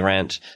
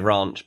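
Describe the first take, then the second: First: The word is said in an American accent. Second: The word is said in a British accent. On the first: This is how people in California say it. "but they say ranch" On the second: This is the speaker's own usual way. "I would normally say ranch"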